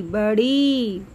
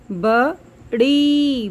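First: Said in the usual way. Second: बड़ी said slowly with the long ई held; slow stretched long ई. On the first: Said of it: "ई की आवाज़". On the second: Shown as a demonstration. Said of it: "ई की आवाज़ आ रही है". (बड़ी की ई को खींचकर धीरे बोलना)

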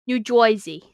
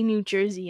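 First: "Jersey" said as "Joisey" in New Jersey accent. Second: Said in the usual way. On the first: Shown as a demonstration. Streamer showing off the one phrase, New Jersey accent. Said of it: "in a New Jersey accent". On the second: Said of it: "I can only say".

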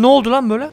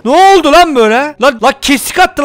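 First: Said in the usual way. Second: Louder, higher, shocked "Ne oldu lan böyle?"; startled outburst. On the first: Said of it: "repeated louder right after". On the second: Real, not acted. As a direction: blurt it out in alarm. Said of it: "repeated louder after plain take".

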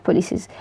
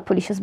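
First: بوليسيز said with a clear s sound; s in بوليسيز, pulliseez, not sh; the correct pronunciation. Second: بوليشيز said with a sh sound; sh in بوليشيز, the way it's said in sections; بوليشيز pronounced pulisheez; the usual section pronunciation. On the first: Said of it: "بس هي النطق الصح بوليسيز". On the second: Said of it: "هما في السكاشن بيقولوها". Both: Shown as a demonstration.

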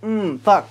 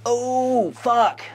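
First: Resigned curse. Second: Sudden stunned realisation; shocked curse. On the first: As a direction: let it sink in, resigned. Second, resigned take of curse. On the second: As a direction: blurt it out in shock. Shocked reaction to reveal. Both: Real, not acted.

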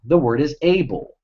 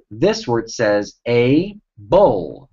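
First: Said in the usual way. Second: Slow syllable by syllable. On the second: Shown as a demonstration.

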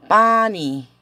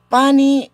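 First: "Pani" spoken slowly and carefully, each syllable clear, falling at the end; slow pronunciation demo. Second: "pani" said much higher and louder, pressed hard; emphatic repeat. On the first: Teacher models "Pani" for Spanish-speaking students, careful slow syllables. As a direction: model "Pani" slowly so the class can copy it. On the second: Teacher repeats "pani" for the class, high and loud emphasis. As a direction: hit "pani" hard so it sticks. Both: Shown as a demonstration.

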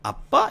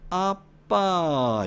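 First: Short, high Seoul intonation; Seoul-style rising call; Seoul accent. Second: Very drawn-out Gyeongsang fall from high; slow, high Gyeongsang call; Gyeongsang dialect. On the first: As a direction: lift it like a Seoul speaker. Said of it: "이 서울 말투는". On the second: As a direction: stretch it long in Gyeongsang intonation. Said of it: "경상도는". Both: Shown as a demonstration.

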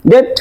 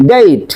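First: ডেট as short "det"; wrong pronunciation. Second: ডেট as "deyt"; correct pronunciation. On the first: Teacher rejects this version, ডেট mispronounced with plain "e". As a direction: say ডেট with pure e. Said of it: "No।". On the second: Teacher answers what we will say, correct "deyt" for ডেট. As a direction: glide from e to i in ডেট. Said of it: "এটা কি বলবো?". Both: Shown as a demonstration.

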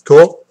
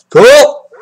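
First: Said in the usual way. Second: "Cool!" said louder and brighter, a quick cheer; suddenly pleased, punch it out; excited. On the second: Real, not acted. Opener repeats himself, now genuinely pleased and louder.

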